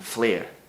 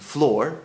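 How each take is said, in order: First: The vowel sounds like 'air'. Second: The vowel sounds like 'or'. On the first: This is the Scots pronunciation. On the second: This is the English pronunciation.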